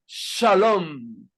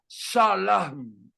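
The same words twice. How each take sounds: First: Shalom said sha-LOM, with a clear o; slow Shalom, stressed rounded o in the last syllable; proper Hebrew pronunciation. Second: Shalom said sha-LAM, with a for o; crude pronunciation. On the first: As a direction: Shalom as sha-LOOM's shape but with o, held final m. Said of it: "en hebreo se pronuncia". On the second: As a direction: sound out Shalom slowly as sha-laam. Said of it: "una traducción burda, sonaría". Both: Shown as a demonstration.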